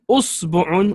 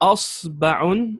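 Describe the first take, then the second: First: The vowel after the b is u. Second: The vowel after the b is a. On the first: "with dhamma, two dhammas" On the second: "with a fatha on the hamza here and the fatha on the ba"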